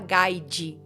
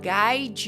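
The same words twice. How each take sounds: First: The word is pronounced following its written letters. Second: The word is pronounced the native English way, 'gaid'. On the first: The speaker calls it wrong. "Eu não quero falar guide" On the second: The speaker calls it right. "Eu escuto ele falando guide you home"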